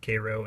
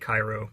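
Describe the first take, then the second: First: It is said the local Illinois way. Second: It is said the way the Egyptian city is. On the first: It names the town in Illinois. "call it Cairo, and things will go easier for you" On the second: It names the city in Egypt. "I know it looks like Cairo"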